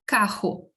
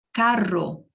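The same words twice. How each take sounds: First: Carro with the rr rasped in the throat like a jota; carro said as kaho, guttural h; throaty r. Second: Carro with a trilled double rr; carro, roll the rr on the palate. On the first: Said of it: "Eu não posso falar carro". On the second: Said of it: "Então, eu falo". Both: Shown as a demonstration.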